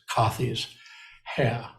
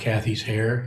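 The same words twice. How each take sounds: First: It is said in a British accent. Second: It is said in the speaker's usual accent. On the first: "using a British accent" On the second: "instead of"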